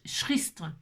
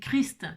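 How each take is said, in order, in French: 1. Le mot commence par un son sh doux. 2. Le mot commence par un k dur. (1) "en fait ça fait ch-" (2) "on dit Christ"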